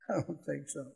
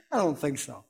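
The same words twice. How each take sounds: First: Much softer, dropping to near nothing; hushed repeat. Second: Said in the usual way. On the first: Shown as a demonstration. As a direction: let the repeat fall away quietly. Repeated dismissal, softer second take.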